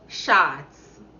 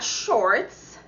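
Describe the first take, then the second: First: It is said with a Jamaican patois pronunciation. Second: It is said with a standard English pronunciation. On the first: "But in Jamaican patois, shorts. Just pure shorts" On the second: "Not shorts"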